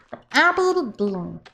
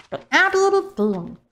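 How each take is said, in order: First: Said in the usual way. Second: Playful much higher take of the name; silly high take. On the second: Pretend. Streamer playfully rereading a donor name, much higher. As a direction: toss it up high for fun.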